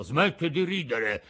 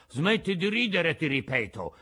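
First: Mildly offended scolding. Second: Threatening yell. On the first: Geppetto scolding the laughing mouth, mildly offended. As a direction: tell the mouth off, a touch louder. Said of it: "disse Geppetto impermalito". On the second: Geppetto repeating his warning to the mouth, mildly threatening. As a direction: warn it sternly, a bit louder. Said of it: "urlò con voce minacciosa". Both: Acted.

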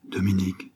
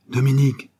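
First: Said in the usual way. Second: Higher, louder call of the name. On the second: A narrator's reading. Laurent calling his brother in the dark. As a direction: call out to find him in the dark. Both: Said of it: "appela-t-il".

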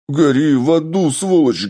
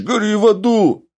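First: High, loud hysterical shout; hysterical yell. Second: Much higher, loud screaming curse; hysterical shriek. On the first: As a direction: scream it at him, losing control. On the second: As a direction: shriek it at the top of the voice. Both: Acted. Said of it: "истерично заорал раненый".

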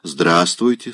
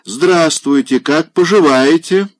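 First: Curt, cool hello; dry greeting. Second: High, loud, hearty hello; loud hearty greeting. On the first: Polina answers the pushy general with a dry, cool hello. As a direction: say it dryly, turning away. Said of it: "сухо сказала она". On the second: Old general greets Polina loudly and heartily. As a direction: boom the greeting at her. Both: A narrator's reading.

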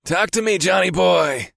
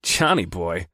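First: High, drawn-out teasing call; high-pitched teasing greeting; ribbing. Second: Stern, unamused repeat of the nickname; stern and disapproving. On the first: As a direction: rib your buddy in a high, playful voice. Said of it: "my friend ribbed". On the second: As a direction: echo it back sternly. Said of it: "I repeated in a stern voice". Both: A narrator's reading.

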